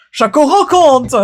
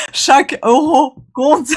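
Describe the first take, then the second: First: Chaque euro compte with euro punched, louder and higher; emphatic. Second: Chaque euro compte said slowly through real laughter; giggling through the line, can't keep it straight; laughing. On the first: Shown as a demonstration. Finally nailing the line for her health insurance vlog, emphatic. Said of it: "chaque euro, chaque euro compte". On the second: Real, not acted. Retaking her line and breaking into giggles, laughing. Cracking up over repeated take.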